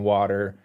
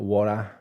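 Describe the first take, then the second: First: The R is pronounced hard, American style. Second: The R is soft, Australian style.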